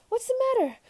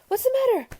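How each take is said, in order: No difference in how they are said.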